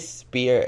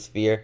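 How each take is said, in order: First: The word starts with a plain 'sp' sound. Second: The word starts with an 'sf' sound. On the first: The speaker calls it wrong. "I say spear" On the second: The speaker calls it right. "but it's really a sphere"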